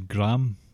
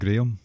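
First: The name is said with an American pronunciation. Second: The name is said with a British pronunciation. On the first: The speaker calls it wrong. "This is a shout out to the Americans listening" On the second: The speaker calls it right. "but it's actually Graham, because we say it properly"

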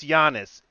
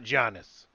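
First: The name begins with a soft Y sound. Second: The name begins with a hard J sound. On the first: The speaker calls it right. "It's a fucking soft Y" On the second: The speaker calls it wrong. "It's not Giannis"

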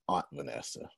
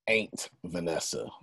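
First: Aunt is said the standard way, not ain't. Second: Aunt is said the Texas way, like ain't.

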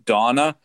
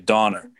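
First: The name ends in a plain vowel. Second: The name ends with an added R sound. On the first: "if I say the name Donna" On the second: "I actually really say Donner"

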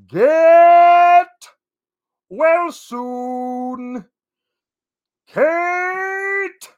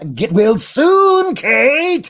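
First: It is said in the Sands of Time voice. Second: It is said in a Joker impression.

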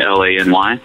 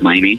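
First: The name is spelled out letter by letter. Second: The name is said as a single word. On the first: "not being sounded out, just like people saying L-A-N-Y" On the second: "it would be easier just to say LANY"

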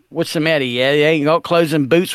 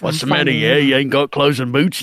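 First: It is read in a plain, ordinary voice. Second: It is read in a put-on shark character voice. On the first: The speaker calls it wrong. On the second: The speaker calls it right.

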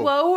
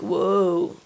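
First: It is said in a plain, ordinary voice. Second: It is said in a drawn-out surfer voice.

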